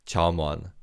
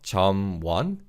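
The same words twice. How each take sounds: First: 점원 said smoothly as 저뭔, the m carried onto 원; linked pronunciation. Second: 점원 split into two syllables, 점 then 원 with the m kept apart; unlinked syllables. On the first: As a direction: run 점원 together so it sounds 저뭔. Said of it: "carries over to the second syllable". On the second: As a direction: say 점원 as 점-원, with a break after the m. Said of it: "So it's not". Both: Shown as a demonstration.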